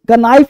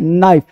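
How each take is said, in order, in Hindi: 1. शुरू की K आवाज़ बोली जाती है। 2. शुरू की K आवाज़ साइलेंट है। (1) "कनाइफ नहीं" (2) "एन से पहले के साइलेंट रहता है"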